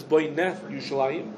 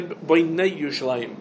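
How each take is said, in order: First: Boineh with a short open "eh" before Yerushalayim; segol vowel. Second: Boinei with a gliding "ey" before Yerushalayim; tzerei vowel. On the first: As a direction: say Boineh as boy-NEH, then Yerushalayim. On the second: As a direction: say Boinei as boy-NEY, then Yerushalayim. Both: Shown as a demonstration. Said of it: "with a Segel or with a Tzerei".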